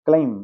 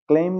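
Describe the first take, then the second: First: क्लेम ending on m alone; silent b. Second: क्लेम with a b after m; b sounded. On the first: Teacher correcting learners, silent b in क्लेम. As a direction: stop on the m of क्लेम, no b. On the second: Teacher showing the wrong reading, b sounded after क्लेम. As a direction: add a closing b to क्लेम. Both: Shown as a demonstration. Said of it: "क्लेम नहीं".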